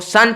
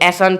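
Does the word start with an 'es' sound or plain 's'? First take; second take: plain s; es. First: The word starts with a plain 's' sound. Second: The word starts with the letter name 'es'. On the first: The speaker calls it right. "सन पढ़ते हो" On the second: The speaker calls it wrong. "ऐसन थोड़ी ना पढ़ते हो"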